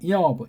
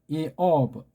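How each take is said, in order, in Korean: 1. 이 단어는 빠르게 발음됐어요. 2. 이 단어는 천천히, 조심스럽게 발음됐어요.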